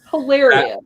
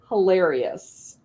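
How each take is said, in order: First: Hilarious said again louder, stressed and falling; an emphatic, louder hilarious; emphatic repeat. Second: Said in the usual way. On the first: Real, not acted. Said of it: "It was hilarious".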